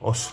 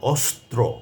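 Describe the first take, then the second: First: The cluster is simplified to only two consonants. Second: All three consonants of the cluster are pronounced. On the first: The speaker calls it wrong. "কেউ কেউ বলেন অস্ত্র, অস্ত্র, শস্ত্র, একেবারে সরলীকরণ করে ফেলেন। এটা ঠিক নয়" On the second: The speaker calls it right. "তিনটি বর্ণ একসঙ্গে যুক্ত হয়েছে"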